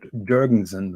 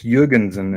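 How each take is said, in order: First: The name is said with anglicized pronunciation. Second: The name is said with native-sounding pronunciation. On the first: This is how outsiders usually say the name. The speaker calls it wrong. "not Jurgensen, like you people say" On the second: This is how the name is really said. The speaker calls it right. "It's called Jurgensen"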